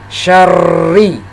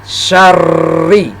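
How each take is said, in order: No difference in how they are said.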